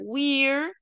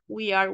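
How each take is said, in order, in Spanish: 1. Las palabras se unen en una sola sílaba: we're. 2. Se pronuncian dos palabras separadas: we y are.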